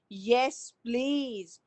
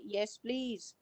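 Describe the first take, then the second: First: It is said with strong stress, sounding angry. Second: It is said in a calm, neutral way. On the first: The speaker is kind of angry. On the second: A plain, polite acceptance.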